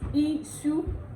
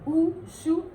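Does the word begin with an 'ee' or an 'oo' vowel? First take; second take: ee; oo. First: The word begins with an 'ee' vowel. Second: The word begins with an 'oo' vowel. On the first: This is the standard Yoruba form. "In Yoruba is Ishu" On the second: This is the Ondo dialect form. "But in Ondo is Ushu"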